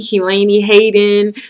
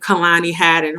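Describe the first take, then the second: First: The name's vowels are pronounced differently. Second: The name is pronounced in its standard way. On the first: The person does not really know the speaker. The speaker calls it wrong. "when I go to the doctor's office, I get Keelaney" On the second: The person really knows the speaker. The speaker calls it right. "they say my name correctly"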